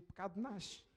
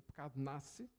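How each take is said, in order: First: European accent, nasce with a sh sound. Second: Brazilian accent, nasce with a plain s sound. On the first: "os portugueses transformam o S e o C em X e dizem" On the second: "deixem-me dizer em brasileiro"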